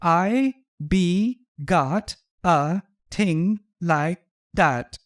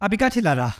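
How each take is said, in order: First: The words are said separately and clearly. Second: The words are slurred together in a Guyanese accent.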